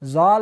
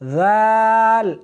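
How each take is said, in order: First: The letter is said with a hard, harsh sound. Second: The letter is said with a soft, gentle sound. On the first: The speaker calls it wrong. "जाल नहीं, सख्ती नहीं करनी" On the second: The speaker calls it right. "बल्कि नरमी के साथ पढ़ना है"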